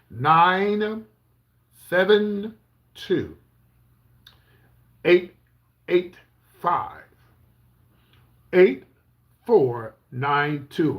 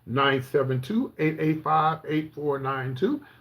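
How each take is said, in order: First: The number is read very slowly. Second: The number is read at normal speed.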